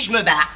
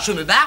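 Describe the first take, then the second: First: The vowel of 'je' is dropped, contracted. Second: The vowel of 'je' is fully pronounced. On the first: The speaker calls it right. "on dit" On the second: The speaker calls it wrong. "on ne dit pas"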